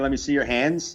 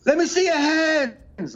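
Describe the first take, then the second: First: Said in the usual way. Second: High, drawn-out singer calling to the crowd; mock concert yell, pitched way up; imitated stage shout. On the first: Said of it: "he just kept saying". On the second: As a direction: holler it slowly, mimicking a rock frontman. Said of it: "he would be like".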